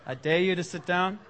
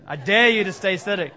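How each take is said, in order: First: Said in the usual way. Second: Louder dare on "dare". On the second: Shown as a demonstration. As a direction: hit "dare" hard and loud. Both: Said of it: "That's a different kind of, uh, call".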